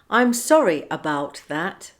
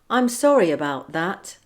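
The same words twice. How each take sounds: First: The words are said separately, without linking sounds. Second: The words run together with a linking sound. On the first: "without linking" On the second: "with the linking"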